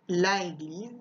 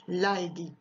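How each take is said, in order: First: The article's vowel is kept before the noun. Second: The same.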